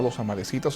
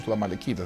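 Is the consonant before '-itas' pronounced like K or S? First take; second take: S; K. First: The consonant before -itas sounds like S. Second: The consonant before -itas sounds like K. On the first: "como una C" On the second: "como una K"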